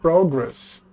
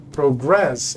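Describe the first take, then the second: First: Progress as PROgress, the noun; stress on first syllable. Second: Progress as proGRESS, the verb; stress on second syllable. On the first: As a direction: hit PRO and let gress fall away. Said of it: "When it sounds like". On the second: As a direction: slowly lean on GRESS in progress. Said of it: "progress is the verb". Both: Shown as a demonstration.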